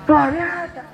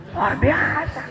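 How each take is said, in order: Both takes have the same delivery.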